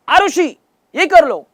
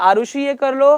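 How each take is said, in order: First: The voice is raised to a higher pitch. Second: The voice is at a normal, lower pitch. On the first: The request is repeated more insistently after being ignored. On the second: A gentle, loving request.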